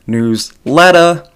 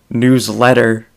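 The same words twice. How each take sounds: First: It is said in a Boston accent. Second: It is said with a plain, non-Boston accent.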